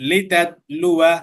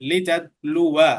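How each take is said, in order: The two takes are said the same way.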